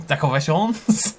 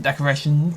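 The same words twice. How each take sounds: First: Hammed-up Italian accent, drawn out; playful fake Italian. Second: Said in the usual way. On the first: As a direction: stretch "decorations" out in a mock Italian accent. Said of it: "Forgot Italian".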